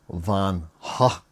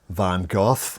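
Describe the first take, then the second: First: The name is said the original way. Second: The name is said the British way. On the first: "apparently it's meant to be pronounced" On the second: "the British, uh, they pronounce it"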